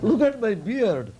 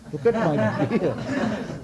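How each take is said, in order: First: Higher, mock-offended insistence; proud sage points to his beard, higher up; indignant sage. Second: Slow, chuckling through the words; old sage laughs off being called a child; laughing protest. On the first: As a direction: demand he look, lightly hammed. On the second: Retold or imitated. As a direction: laugh at the insult as you say it. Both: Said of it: "Markandeya could not contain".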